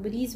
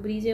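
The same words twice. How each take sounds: First: ब्रीज said as "breej", no vowel after it; one-syllable pronunciation. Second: ब्रीजे said with an added "ay" ending; two-syllable pronunciation. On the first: Vlogger citing how other shoppers say the brand, ब्रीज pronounced as one syllable. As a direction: close ब्रीज on the final consonant. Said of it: "कुछ लोग ब्रीज बोलते हैं". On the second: Vlogger citing how some shoppers say the brand, ब्रीजे pronounced "bree-jay". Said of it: "कुछ लोग ब्रीजे बोलते हैं". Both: Retold or imitated.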